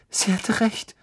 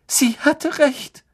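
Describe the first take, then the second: First: Higher, tearful first realisation. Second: Higher, louder, slow tearful wail. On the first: Lavender realising the prophecy came true, tearful. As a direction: say it with a catch in the throat. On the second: Lavender wailing that the prophecy came true, distraught. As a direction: let the grief break out. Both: Acted.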